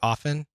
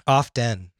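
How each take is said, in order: First: The T sound in the middle is silent. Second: The T sound in the middle is pronounced. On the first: "some people say often. Like coffin without a C?" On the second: "There's a T in it"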